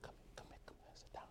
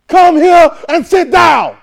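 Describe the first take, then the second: First: Hushed whispered call. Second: Slow, high, loud shouted order; yelling. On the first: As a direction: whisper it gently, come sit. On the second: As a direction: bark it out like an angry command. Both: Shown as a demonstration. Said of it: "Same words. Different tone".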